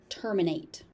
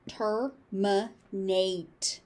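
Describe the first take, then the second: First: Said in the usual way. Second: "Terminate" slow as ter, muh, nate; syllable by syllable. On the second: Shown as a demonstration. Teacher breaking the word down for learners, syllable by syllable. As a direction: pause between each syllable of "Terminate".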